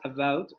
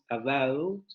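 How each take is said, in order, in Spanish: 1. El diptongo suena como el estándar habitual. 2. El diptongo suena diferente, como el acento que se escucha. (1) "No es about" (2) "El diptongo es otro"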